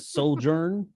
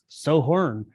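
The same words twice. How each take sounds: First: The word is pronounced with English sounds. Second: The word is pronounced with Spanish sounds. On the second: "If this is Spanish, it's"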